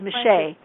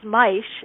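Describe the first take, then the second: First: The name is pronounced the French way. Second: The name is pronounced the German way. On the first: "the French is" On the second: "The German pronunciation of my name is"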